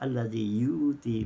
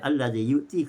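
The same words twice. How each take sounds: First: A long vowel replaces the glottal stop. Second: A glottal stop is heard before ti. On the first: "hamzah mufrad diibdalkan kepada waw mat"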